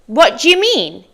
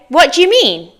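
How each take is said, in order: First: The words run together in a reduced form. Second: The same.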